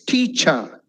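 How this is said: The pitch dips on the second part. The speaker calls it right. "the word should dip on the second part"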